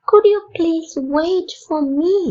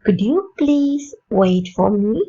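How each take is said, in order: First: Higher, slow, stressed "could"; higher polite repeat. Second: Slow polite question, rising; slow polite request. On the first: Teacher repeating the polite request for learners, higher. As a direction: lift it up and lean on "could". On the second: Teacher modelling a very polite request, slow and rising. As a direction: ask it gently and slowly. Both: Shown as a demonstration. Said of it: "எப்படி கேட்கலாம்?".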